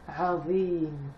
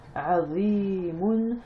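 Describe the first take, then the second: First: The word ends on m, without -oun. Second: The word ends with a final -oun syllable. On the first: "le oun, on ne va pas le prononcer" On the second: "le tanwin madamma, c'est-à-dire le oun"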